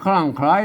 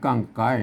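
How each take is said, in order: First: It is read in Standard Thai style. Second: It is read in Northern Thai style. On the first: "อันนั้นมันไทยนะ" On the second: "อันเมืองมันจะต้องอ่านว่ากั้งไก่"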